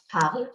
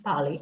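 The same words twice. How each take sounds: First: Parle said as one syllable, "parl"; silent final E. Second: Parler said "par-lay", silent R; final é pronounced. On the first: Teacher contrasting the present tense, parle with silent E. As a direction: stop parle on the L, no "ay". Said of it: "instead of parle as in present tense". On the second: Teacher explaining the past participle, parler ending in "ay". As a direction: end parler on a closed "ay". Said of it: "still the pronunciation remains parler". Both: Shown as a demonstration.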